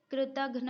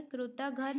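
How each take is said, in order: First: कृतघ्न ending in the cluster "ghna", krutaghna; correct pronunciation. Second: कृतघ्न ending in "ghan", krutaghan; wrong pronunciation. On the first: Teacher giving the correct spelling, कृतघ्न as "krutaghna". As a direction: join "gh" and "n" at the end of कृतघ्न. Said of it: "होता है". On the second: Teacher rejecting a misspelling, कृतघ्न said as "krutaghan". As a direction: split the "ghn" of कृतघ्न with a vowel. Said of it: "नहीं होता है". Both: Shown as a demonstration.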